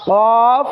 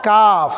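First: কফ long and rounded from the tongue root; back-of-tongue Q. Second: কাফ with the tongue slightly forward of its root; light, open K in কাফ, tongue on the palate. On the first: Teacher drills the contrast with kaf, tongue-root Q in কফ. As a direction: Q far back against the palate in কফ. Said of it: "জিহ্বার গোড়া". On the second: Teacher contrasts it with qaf, forward-tongue K in কাফ. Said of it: "একটু আগে সামনের দিকে". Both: Shown as a demonstration.

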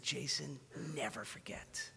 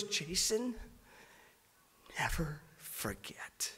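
First: Soft whispered plea, almost breaking; tearful whisper. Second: Whispered, slow and tender through tears; soft whispered plea, almost breaking; tearful whisper. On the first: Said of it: "He told me, he said". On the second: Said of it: "he's already crying". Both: Retold or imitated. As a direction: breathe it out like a crying friend.

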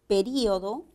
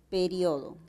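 First: Período, stressed í, four syllables pe-rí-o-do; período with hiato. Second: Periodo, stressed o, rio as one syllable; periodo with diphthong. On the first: Teacher showing students período, stressed í. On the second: Teacher showing students periodo, stressed o. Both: Shown as a demonstration. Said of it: "también puede ser pronunciada como".

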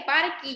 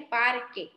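First: "parque" ending in i, as "parki"; "parque" with KI for its last syllable; wrong final vowel. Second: "parque" ending in e, as "par-ke"; "parque" as PAR-KE, silent U; correct final vowel. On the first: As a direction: say "parque" as PAR-KI, the mistaken version. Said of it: "yo no dije parque". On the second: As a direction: say "parque" clearly with KE at the end. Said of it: "yo dije parque". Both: Shown as a demonstration.

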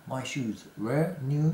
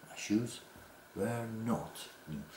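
First: My shoes were new slowly, rising; slow model sentence. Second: Were not new very slowly and much softer; slow negated model. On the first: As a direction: read it out slowly. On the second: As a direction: stretch the not, drop the volume. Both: Shown as a demonstration.

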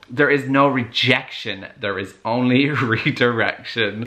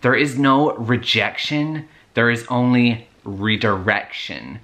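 First: Laughing quote. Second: Put-on slow, drawn-out American accent; slow mock-profound American accent. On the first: Retold or imitated. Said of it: "the whole". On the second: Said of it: "I'm gonna be putting an American accent".

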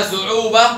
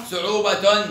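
First: صعوبة ending in -ah; pausal haa. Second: صعوبة ending in -atun; sounded taa. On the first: Teacher tests taa marbuta, صعوبة with final h. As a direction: end صعوبة on h. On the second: Teacher tests taa marbuta, صعوبة ending in -tun. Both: Shown as a demonstration. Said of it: "يبقى بالتاء المربوطة".

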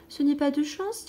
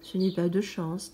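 First: «Ce n'est pas de chance» plus haut, montée sur «n'est»; un enfant qui plaint son ami, voix claire qui monte; petit prince compatissant. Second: «Ce n'est pas de chance» plus bas, descente sur «de»; un homme las qui accepte son sort; allumeur résigné. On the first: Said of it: "dit le petit prince". (le petit prince console l'allumeur, ton plus haut et montant) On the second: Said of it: "dit l'allumeur". (l'allumeur répond au petit prince, voix basse et résignée) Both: Acted.

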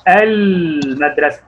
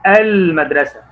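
First: المدرسة read slowly, syllable by syllable; slow drawn-out reading. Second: Said in the usual way. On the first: Shown as a demonstration. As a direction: stretch out المدرسة as a reading model. (قراءة بطيئة ممدودة) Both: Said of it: "زي كده ما أقول إيه؟".

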